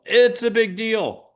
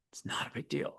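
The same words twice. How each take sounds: First: High, drawn-out mock alarm; overblown alarm. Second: Hushed whisper, no voice; whispered reassurance. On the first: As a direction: blow it up, slow and high. Mock argument, big deal versus not. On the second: Acted. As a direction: whisper it away, very softly. Mock argument, dismissing it in whisper.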